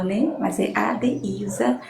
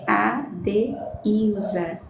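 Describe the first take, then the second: First: Said in the usual way. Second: Adeilza pronunciado devagar, sílaba por sílaba; careful spelling-out. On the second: Shown as a demonstration. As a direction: diga Adeilza bem pausado, A-deil-za. (Adeilza dito lentamente, sílaba a sílaba) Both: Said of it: "certamente alguém às vezes diz Al".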